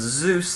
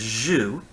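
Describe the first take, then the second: First: It starts with z and ends with s. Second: It starts with a soft j, no final s. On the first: It is the Greek name. "the Greek word Zeus" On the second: It is how a Latin speaker said the name. "they would drop off the S part of the word. They'd soften the J, the Z sound to a J sound"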